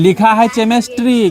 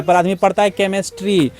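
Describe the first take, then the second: First: 'केमिस्ट्री' read with a ch sound as in chair, as spelt; wrong spelling-based reading. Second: 'केमिस्ट्री' said with a k sound at the start; correct reading. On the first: Teacher shows pupils the mistaken reading, ch sound. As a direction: say 'केमिस्ट्री' starting with ch, not k. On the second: Teacher gives pupils the right reading, k sound. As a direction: say 'केमिस्ट्री' as kemistry, hard k. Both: Shown as a demonstration.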